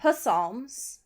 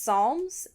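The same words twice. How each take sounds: First: The word starts with a clear P sound. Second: The word starts with no P sound. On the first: The speaker calls it wrong. "not Psalms, which is how Chaboy pronounced it for way too long" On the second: The speaker calls it right. "it's pronounced Psalms"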